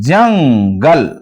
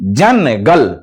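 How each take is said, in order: First: The n is a nasal sound blended into gal. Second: The n is a full consonant, split from gal. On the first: The speaker calls it right. "नाक में उसकी आवाज आएगी" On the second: The speaker calls it wrong. "अगर इसको कोई गलत पढ़ता है"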